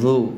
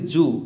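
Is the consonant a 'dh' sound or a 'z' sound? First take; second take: dh; z. First: The consonant is a 'dh' sound. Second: The consonant is a 'z' sound. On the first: The speaker calls it right. "এভাবে দেখুন" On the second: The speaker calls it wrong. "আউযু আমরা বলি জু, জু বললে হবে না"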